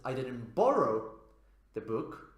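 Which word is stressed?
borrow. The strongest stress falls on the word borrow. A different action was done with the book. "if we place stress on borrow"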